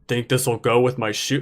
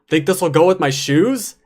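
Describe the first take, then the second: First: It is said in a very serious tone. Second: It is said lightly, like a joke.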